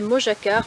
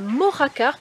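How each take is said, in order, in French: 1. La consonne du milieu se prononce comme le j français. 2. La consonne du milieu se prononce comme un r. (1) "jusqu'à maintenant je vous disais Mojacar" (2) "le J se prononce R"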